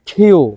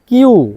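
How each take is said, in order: First: The k has a strong puff of air. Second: The k is plain with no puff of air. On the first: The speaker calls it right. "Bangla খ সাউন্ডের মতো করে" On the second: The speaker calls it wrong. "একদম ভুল পদ্ধতিতে"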